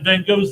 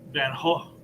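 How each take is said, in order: First: The name is said the American way. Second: The name is said the Dutch way.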